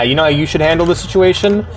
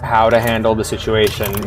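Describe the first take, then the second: First: Quicker, higher sarcastic throwback; mocking retort. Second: Narration reading. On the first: Real, not acted. Streamer mocking the game's line, sarcastic and higher. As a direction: toss the phrase back at the story with scorn. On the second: A narrator's reading. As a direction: read it as plain story narration. Reads the line from the game.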